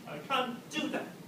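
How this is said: The stress falls on the word do. "So it's on the do"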